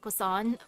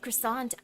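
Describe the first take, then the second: First: It is pronounced in a French-like way. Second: It is pronounced in a plain English way. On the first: This is the proper way to say it. "I know it's supposed to be something like that, like croissant" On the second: This is the habitual everyday way to say it. "I'm too used to croissant"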